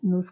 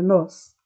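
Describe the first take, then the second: First: The word is said weak and unstressed. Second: The word is said strong and stressed. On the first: It only has meaning attached to a verb. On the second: It works as the subject.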